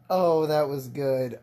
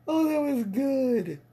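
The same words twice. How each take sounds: First: Said in the usual way. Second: Pitched up and gleeful; high, gleeful praise; delighted, high. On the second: Real, not acted.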